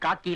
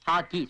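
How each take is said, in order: First: The word begins with a K sound. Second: The word begins with an H sound. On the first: The speaker calls it wrong. "அது காக்கி இல்ல" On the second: The speaker calls it right. "இல்ல ஹாக்கி"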